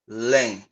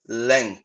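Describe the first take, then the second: The two takes are said the same way.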